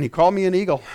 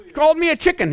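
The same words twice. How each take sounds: First: Lower, matter-of-fact answer; settled reply. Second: High-pitched mock protest; mock complaint. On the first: Acted. Believer who hears it right, low assured reply. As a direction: drop the pitch and state it calmly. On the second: Listener who mishears the message, high mock complaint. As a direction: pipe it up like an affronted listener.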